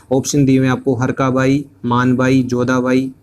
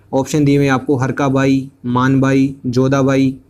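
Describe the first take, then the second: The two takes are said the same way.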